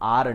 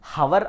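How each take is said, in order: First: The word begins with a vowel, h silent. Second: The word begins with a pronounced h sound. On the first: The speaker calls it right. "మనం ఆర్ అంటున్నాం" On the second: The speaker calls it wrong. "హవర్ అనట్లేదు"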